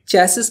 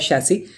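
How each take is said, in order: First: It begins with ch and ends in s. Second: It begins with sh and ends in ee. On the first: The speaker calls it wrong. "जिसे चैसिस भी कुछ लोग बोलते हैं" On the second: The speaker calls it right. "इसका actual pronunciation होता है शैसी"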